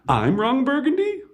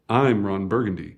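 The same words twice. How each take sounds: First: The voice rises at the end. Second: The voice falls at the end.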